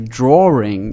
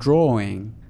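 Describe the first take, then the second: First: An extra r sound is inserted mid-word. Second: No extra r sound is inserted mid-word. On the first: This is the Australian way of saying it. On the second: This is the non-Australian way of saying it.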